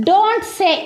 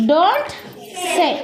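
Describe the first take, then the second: First: Said in the usual way. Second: Don't rising, long pause, then say; Don't then a held pause before say; split with a pause. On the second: Shown as a demonstration. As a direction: leave a gap after Don't for the class to finish. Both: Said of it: "చెప్పొద్దు".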